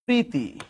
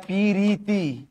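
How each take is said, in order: First: Said in the usual way. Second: পিরিতি in three syllables, pi-ri-ti; rustic pi-ri-ti for পিরিতি; split cluster. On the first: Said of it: "এ পাশে গেলে হয় পিরিতি". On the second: Shown as a demonstration. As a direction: open up the pr of পিরিতি with an i. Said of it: "এ পাশে গেলে হয়".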